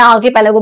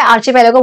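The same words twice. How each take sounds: First: आर्कीपेलागो with a hard "ki" in the second syllable; आर्कीपेलागो, hard "k" instead of "ch"; speaker's preferred pronunciation. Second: आर्चीपेलागो with a "chi" sound in the second syllable; variant pronunciation. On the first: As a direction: say आर्कीपेलागो with "k" as in key. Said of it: "मैं आर्कीपेलागो बोलती हूँ". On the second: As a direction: say आर्चीपेलागो with "ch" as in chair. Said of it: "बोलते हैं कुछ लोग". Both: Shown as a demonstration.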